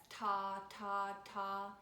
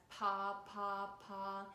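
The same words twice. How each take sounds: First: "ta, ta, ta" with a crisp T attack on each; crisp accented syllables. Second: "pa, pa, pa" with a rounded P attack on each; warm, rounded accents. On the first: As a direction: hit each "ta" as a separate crisp note accent. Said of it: "Ta is a lot crispier". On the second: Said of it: "a little bit more warm and rounded". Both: Shown as a demonstration.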